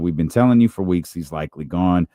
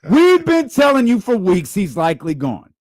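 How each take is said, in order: First: It is read in a plain, matter-of-fact tone. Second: It is read in a scornful, dramatic, mocking tone. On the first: It is simple reporting. "This is how I'm writing it" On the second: The player is being put down. "Someone who does not like DeMar DeRozan or Zach LaVine is reading it like this"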